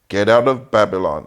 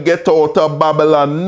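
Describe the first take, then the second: First: It is said in the speaker's usual accent. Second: It is said in a Jamaican accent.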